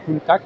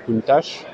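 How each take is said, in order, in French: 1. Il se prononce à l'italienne, en finissant par k. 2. Il se prononce à la française. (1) "En italien on dirait Countach, puisque C H en italien se prononce que" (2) "En français Countach"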